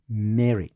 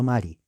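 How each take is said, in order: First: The name is said with an English pronunciation. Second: The name is said with a Spanish pronunciation. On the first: The speaker calls it right. "Esa es la pronunciación" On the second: The speaker calls it wrong. "Mary es pronunciación española"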